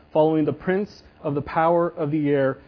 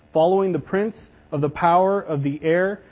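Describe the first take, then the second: The two takes are said the same way.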